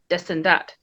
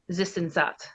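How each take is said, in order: First: The th sounds are said as d sounds. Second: The th sounds are said as th sounds. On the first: "the Quebec speakers... they would say like des and dat" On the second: "In France, it'd be like this and that"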